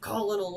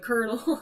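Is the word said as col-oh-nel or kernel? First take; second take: col-oh-nel; kernel. First: It is said with three syllables, col-oh-nel. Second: It is said with two syllables, like kernel. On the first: The speaker calls it wrong. "it's not Colonel" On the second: The speaker calls it right. "it's uh, Colonel"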